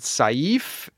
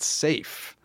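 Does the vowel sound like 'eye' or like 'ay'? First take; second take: eye; ay. First: The vowel sounds like the word 'eye'. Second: The vowel sounds like the letter 'A'. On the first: The speaker calls it right. "I always pronounce it Saif" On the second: The speaker calls it wrong. "You pronounce it safe"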